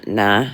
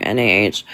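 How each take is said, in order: First: Said in the usual way. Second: Nah spelled N A H letter by letter; each letter of N A H said separately. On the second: Shown as a demonstration.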